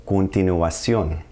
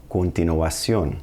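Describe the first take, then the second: First: Continuación slowly, every vowel clear, stress on ó; slow teacher demo of continuación; slow Spanish pronunciation. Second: Continuación repeated slowly, ua clear, stress on ó; second slow model of continuación; slow Spanish pronunciation. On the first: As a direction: move your mouth through the vowels of continuación. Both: Shown as a demonstration. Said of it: "gotta move your mouth a lot".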